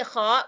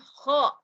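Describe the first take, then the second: First: The syllable ends in an a vowel. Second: The syllable ends in an o vowel. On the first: The speaker calls it right. "ini kha" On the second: The speaker calls it wrong. "bukan kho. Jadi bukan bunyinya o"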